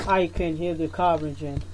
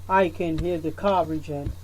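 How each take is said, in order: Both takes have the same delivery.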